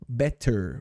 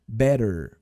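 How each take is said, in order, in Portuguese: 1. O T do meio é um T duro e nítido. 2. O T do meio é um flap rápido, parecido com R. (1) "e não" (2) "esses dois T's meio que estão fazendo esse sonzinho de R meio corridinho"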